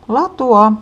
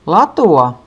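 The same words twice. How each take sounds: First: Latua called out higher and loud; higher shout. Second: Loud call to clear the track; shouting. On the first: Big sister calling again, more urgently. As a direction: push the second latua up high. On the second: Big sister shouting to clear the ski track. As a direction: shout latua to get past. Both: A narrator's reading. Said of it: "isosisko huutaa".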